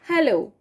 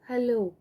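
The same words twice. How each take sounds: First: It is said very loudly. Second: It is said very quietly.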